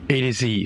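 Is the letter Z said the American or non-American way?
American. The final letter is said the American way. The speaker calls it right. "for the Americans"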